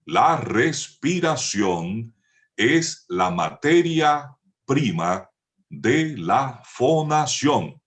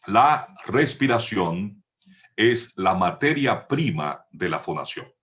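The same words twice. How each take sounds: First: Each word slow and drawn out for note-taking; slow dictation. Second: Said in the usual way. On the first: Shown as a demonstration. Teacher dictating to students, slow and stretched. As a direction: dictate la respiración es la materia prima slowly, rising on materia. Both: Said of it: "pueden anotar esto".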